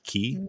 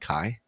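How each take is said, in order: First: The vowel is an 'ee' sound. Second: The vowel is an 'eye' sound. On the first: The speaker calls it right. "which is like key" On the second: The speaker calls it wrong. "I said Kai"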